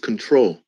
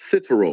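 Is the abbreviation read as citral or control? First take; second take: control; citral. First: It is said as control, with the vowels. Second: It is said as citral, without the vowels. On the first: The speaker calls it right. "I told you it's control" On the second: The speaker calls it wrong. "out of ignorance, saying it wrong"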